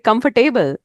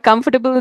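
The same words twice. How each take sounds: First: It is said with a strong local Garhwali-influenced accent. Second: It is said in a plain standard English accent. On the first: "they would say comfortable" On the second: "For comfortable"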